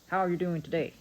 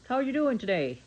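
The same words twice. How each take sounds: First: It sounds flat, declarative and forceful. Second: It sounds enthusiastic and genuinely happy.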